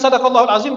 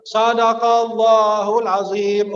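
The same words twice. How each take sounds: First: Said in the usual way. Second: Sadaqallahul azim dilantunkan lambat dan panjang; dilafalkan pelan. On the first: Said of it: "kalau udah kelar baca". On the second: Shown as a demonstration. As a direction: lafalkan Sadaqallahul azim perlahan seperti penutup bacaan. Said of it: "Akhirnya dia bilang apa?". (jamaah menutup bacaan, lafal pelan dan panjang)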